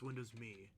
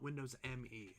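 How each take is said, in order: First: Me is said as one word. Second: Me is spelled out as two letters. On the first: The speaker calls it right. "Like the word me" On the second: The speaker calls it wrong. "It's not Windows M E"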